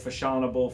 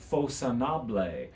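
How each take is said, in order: First: It sounds like the English word fashionable. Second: It does not sound like English fashionable. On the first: The speaker calls it wrong. "I've heard it pronounced fashionable" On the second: The speaker calls it right. "the correct pronunciation is Fausonable"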